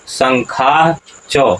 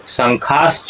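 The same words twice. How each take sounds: First: The word is pronounced precisely, every sound clearly articulated. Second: The word is pronounced loosely, sounds not fully articulated. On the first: The speaker calls it right. "उच्चारण क्या होगा?" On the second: The speaker calls it wrong. "शंखाश्च उच्चारण नहीं होगा।"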